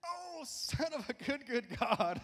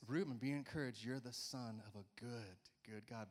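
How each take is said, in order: First: Very high, slow, rising to a loud cry; exclaiming in awe. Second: Softly, fading away to a hush; mean every word, tenderly; sincere child's blessing. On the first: Pretend. Pastor crying out his daughter's phrase in high wonder. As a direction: burst out in amazed praise. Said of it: "Sometimes it's just like". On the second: Retold or imitated. Pastor voicing daughter's heartfelt note, soft and sincere. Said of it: "she just meant it".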